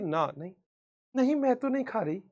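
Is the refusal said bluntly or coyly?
coy. The refusal is said coyly and expressively.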